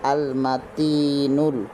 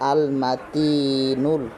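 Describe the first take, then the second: The two takes are said the same way.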